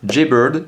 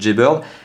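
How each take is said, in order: First: The name is said with an English accent. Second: The name is said with a French accent. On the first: "avec mon très bon accent anglais" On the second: "En français, ça fait"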